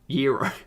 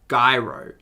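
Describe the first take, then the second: First: The word begins with a Y sound. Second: The word begins with a hard G sound. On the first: "the G is a Y" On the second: "gyros makes me think gyroscopic"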